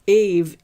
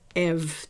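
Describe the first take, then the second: First: The vowel sounds like 'ay'. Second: The vowel sounds like 'eh'. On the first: The speaker calls it wrong. "So it's not Ave" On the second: The speaker calls it right. "it's Ev, technically"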